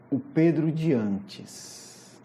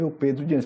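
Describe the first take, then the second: First: "o Pedro de antes" drawn out slowly, leaning on Pedro; slow emphasis. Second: Said in the usual way. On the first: Shown as a demonstration. Preacher stressing to the congregation, "o Pedro de antes" slowed right down. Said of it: "Importante ver o Pedro de antes".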